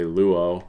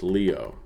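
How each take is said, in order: First: The first vowel is a plain back 'oo' sound. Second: The first vowel is an unrounded 'ee' sound. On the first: This is a casual simplified pronunciation. "you'll often hear me just say luo" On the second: This is the modern Greek pronunciation. "In modern Greek, this would be pronounced Leo. That uh, upsilon just kind of goes to a I sound"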